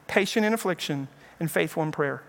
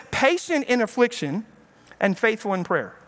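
First: Softer and lower, settling down; soft repeat. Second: Said in the usual way. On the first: Shown as a demonstration. Preacher repeats the verse to his flock, softer and lower. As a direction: let the verse sink in quietly. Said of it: "repeats the verse softer". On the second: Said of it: "So he says".

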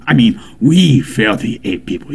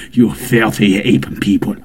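First: "we" lifted and stressed, correcting; "we" stressed with a rising correction. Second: "You" hit first, insulting; "You" stressed as an accusation. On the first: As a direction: include yourself by pushing "we". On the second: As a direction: point the blame with "You". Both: Acted.

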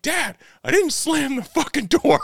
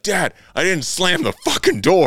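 First: Much higher squeaky indignant protest, half laughing; frustrated son. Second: High, loud indignant protest; mock the kid's outraged denial, pitched up; frustrated son. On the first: Retold or imitated. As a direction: squeak out the kid's outrage through a grin. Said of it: "and he's like". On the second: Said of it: "he's like".

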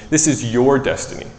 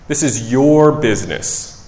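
First: "This" leaned on, rest of line even; stress on THIS. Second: Slow, with "your" leaned on and a falling finish; stress on YOUR. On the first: Pastor to congregation, emphasis on "This". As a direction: mark "This" as the key word. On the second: Pastor to congregation, slow weight on "your". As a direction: draw out "your" slowly, then drop. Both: Shown as a demonstration.

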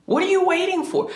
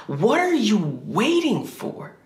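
First: Very high-pitched, cracking cry of frustration; mock desperate yell. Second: Drawn-out, pitched higher, bitter challenge to God; slow frustrated demand. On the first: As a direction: throw it up high like you can't take it anymore. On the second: Retold or imitated. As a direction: lean on every word, slowly. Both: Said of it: "I remember yelling at God".

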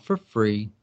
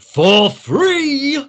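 First: Said in the usual way. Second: Loud, high-pitched shout of disbelief; explosive, shrieked exclamation; outraged yell. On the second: A narrator's reading. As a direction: yell it out as a scandalised miser, leaping up in pitch. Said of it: "B Z yelled".

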